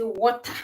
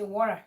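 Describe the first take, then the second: First: It is said in a Ghanaian accent. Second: It is said in an American accent. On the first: "Ghanaians will say water" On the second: "the American will say water"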